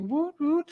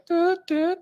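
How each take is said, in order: First: Much higher woot woot cheer that still feels off; a high hesitant woot woot; woot cheer attempt. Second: Much higher, botched doot doot call, coming out wrong; failed woot cheer. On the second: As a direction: squeak out a clumsy doot doot. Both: Shown as a demonstration. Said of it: "I can't do a woot correctly".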